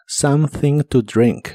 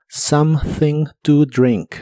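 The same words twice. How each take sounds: First: "something to drink" slow, th blown between the teeth; slow model phrase. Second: "Something to drink" slowly, blown th, o as a; "Something to drink" with th between the teeth, slow; slow model phrase. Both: Shown as a demonstration.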